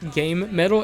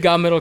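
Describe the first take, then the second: First: The first word sounds like 'game'. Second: The first word sounds like 'god'. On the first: "that's actually the uh, technically correct pronunciation" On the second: "I just say god metal because it's it, it's easier for me to say"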